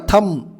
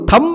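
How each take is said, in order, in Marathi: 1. शेवटी b चा आवाज ऐकू येत नाही. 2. शेवटी b चा आवाज ऐकू येतो. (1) "बी खाऊन टाकतो आपण" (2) "थंब नाही"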